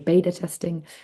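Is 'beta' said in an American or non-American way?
American. Beta is said in an American way.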